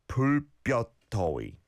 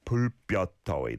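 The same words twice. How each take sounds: First: "불볕더위" spread out syllable by syllable; careful model pronunciation. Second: "불볕더위" run together fast; quicker model pronunciation. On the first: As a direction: say "불볕더위" carefully for learners to follow. Teacher models phrase slowly, then quicker. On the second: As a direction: say "불볕더위" quickly as one connected phrase. Teacher repeats phrase more quickly. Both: Shown as a demonstration.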